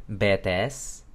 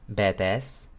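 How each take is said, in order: The two takes are said the same way.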